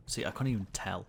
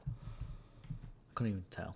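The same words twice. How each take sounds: First: Said in the usual way. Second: Slow, breathy whisper to himself; a slowed whisper aside to himself; whispered repeat. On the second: Real, not acted. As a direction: repeat it under your breath, slowly.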